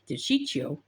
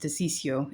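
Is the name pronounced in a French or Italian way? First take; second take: Italian; French. First: The name is said with an Italian pronunciation. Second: The name is said with a French pronunciation. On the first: "is how a Cuban or uh, an Italian person would uh, pronounce it" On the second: "is how a French person would pronounce it"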